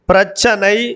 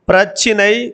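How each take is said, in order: First: The middle syllable is said with an 'a' vowel. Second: The middle syllable is said with an 'i' vowel. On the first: This is the spoken form. "பேச்சு வழக்கில் சனையாகவும்" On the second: This is the written form. "எழுத்து வழக்கில் சினையாகவும்"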